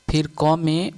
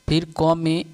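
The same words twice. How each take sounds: The two takes are said the same way.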